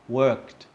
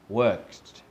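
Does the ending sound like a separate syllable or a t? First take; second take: t sound; t sound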